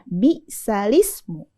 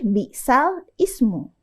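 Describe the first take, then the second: First: The lam runs straight into the next syllable. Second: The lam stops before a separate syllable. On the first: The speaker calls it right. "Yang dikasrohkan huruf lamnya ya" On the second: The speaker calls it wrong. "Bukan lagi bisal ismu"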